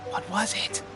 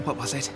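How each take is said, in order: First: Soft question with rising end; quietly stumped, tune going up; puzzled recall. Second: Low, soft self-questioning; trying to remember. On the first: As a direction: keep searching, lifting the last word. Asks himself again, still stuck. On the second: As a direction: think aloud quietly, searching the memory. Forgets last tip, tries to recall. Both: Acted.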